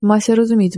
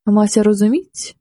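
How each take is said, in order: First: Mildly muttered, falling at the end; grumbling. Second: Slow, mildly muttered question; understated puzzled grumble, drawn out; grumbling. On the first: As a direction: grumble it to yourself as an answer. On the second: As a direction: grumble it to yourself, rising at the end. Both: A narrator's reading. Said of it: "бурчав він".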